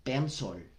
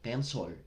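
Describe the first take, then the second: No difference in how they are said.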